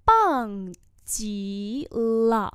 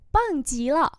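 First: Very drawn-out syllables; slow, careful repeat; slow model pronunciation. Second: Said in the usual way. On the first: Shown as a demonstration. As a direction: teach it syllable by syllable. Teacher repeats phrase slowly.

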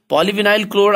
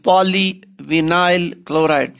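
First: Said in the usual way. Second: "polyvinyl chloride" slowly, with gaps between poly, vinyl and chloride; syllable by syllable. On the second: Shown as a demonstration. Teacher showing students three syllables, "polyvinyl chloride" in separated parts. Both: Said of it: "there are three syllables".

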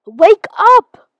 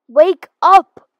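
First: Higher, louder wake-up yell. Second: Loud yell to wake him; shouting. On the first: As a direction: bellow it to wake him. Second, stronger wake call. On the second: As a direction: call out hard to wake someone. Waking a sleeping stranger. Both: Acted.

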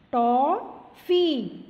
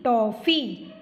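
First: टॉफ़ी said slowly, the ऑ drawn out open; टॉफ़ी, slow and stretched. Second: Said in the usual way. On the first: Shown as a demonstration. (टॉफ़ी को धीरे, ऑ खींचकर) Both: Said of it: "ओ की sound आती है इससे".

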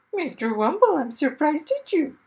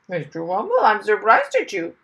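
First: High, louder chiding parrot; talking parrot scolding its owner. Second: Parrot said loudly. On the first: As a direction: scold him like a prim parrot. Parrot speaks by his ear. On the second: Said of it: "the parrot said loudly". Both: Acted.

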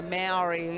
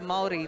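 First: "Maori" said as MAY-OW-ree, with a hard English r; mispronounced Maori. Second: "Maori" said as MOL-dee, with a tapped r; correct Maori pronunciation. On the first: Commentator showing how others get "Maori" wrong, mispronounced. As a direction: say "Maori" the anglicised way, MAOW-ree. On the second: Commentator correcting the pronunciation of "Maori", properly pronounced. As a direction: tap the r in "Maori", two smooth syllables. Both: Shown as a demonstration. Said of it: "the pronunciation of".

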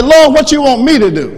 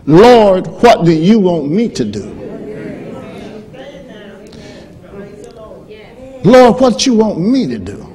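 First: Called out high and loud; loud pulpit plea. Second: Proclaimed plea. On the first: Preacher leading the congregation to say it, loud. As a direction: lead the church in the plea. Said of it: "Let's practice. Say". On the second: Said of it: "here's what that says". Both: Shown as a demonstration.

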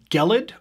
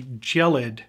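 First: Gelid said with a hard g, like kell-id. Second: Gelid said with a soft j sound, like jell-id. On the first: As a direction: try gelid starting with a hard g sound. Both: Shown as a demonstration. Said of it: "probably gelid".

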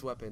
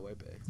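First: "Wepe" with a short E first, like "WEP-ay"; correct pronunciation. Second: "Wepe" with a long A first, like "WAY-pay"; mistaken pronunciation. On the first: Player correcting friend's name for it, "Wepe" said WEP-ay. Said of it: "not Wepe". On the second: Player quoting friend's mistake, "Wepe" said WAY-pay. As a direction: say "Wepe" as WAY-pay, rhyming both halves. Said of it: "it's Wepe, not Wepe". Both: Shown as a demonstration.

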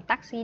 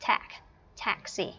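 First: "taxi" with unaspirated t and even syllables; Vietnamese pronunciation. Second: "Tax" isolated first, then "taxi" stressed up front; English pronunciation. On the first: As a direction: say "taxi" flatly as a Vietnamese loanword, no English stress. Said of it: "không đọc là thành taxi đâu nha". (đọc "taxi" theo kiểu tiếng Việt) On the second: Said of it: "phải chú ý về cách phát âm". (phát âm tách "Tax" rồi "taxi" kiểu tiếng Anh) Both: Shown as a demonstration.

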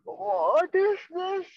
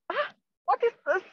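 First: High and drawn out, slowly realising; slow, high frightened question; slow dawning fear. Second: High, fast frightened squeak; quick panicky what is this; startled lizard. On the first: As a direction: stretch it as the horror sinks in. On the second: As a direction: blurt it out in sudden alarm. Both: Acted. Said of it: "And he's like".

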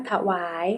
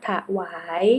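First: Said in the usual way. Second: ถวาย split as ถะ-หวาย; syllable-by-syllable reading. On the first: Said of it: "คำว่าถวาย". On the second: Shown as a demonstration. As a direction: sound out ถวาย as ถะ, then หวาย. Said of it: "อ่านว่าถวาย".

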